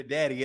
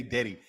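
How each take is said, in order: First: "daddy" with a short a as in "cat"; "daddy" rhyming with "caddy"; standard pronunciation. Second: "daddy" said as "deddy"; "daddy" rhyming with "ready"; local pronunciation. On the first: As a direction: say "daddy" with an open a vowel. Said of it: "I changed it to daddy eventually". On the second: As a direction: use an eh vowel in "daddy". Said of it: "Yeah, I did say daddy". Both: Shown as a demonstration.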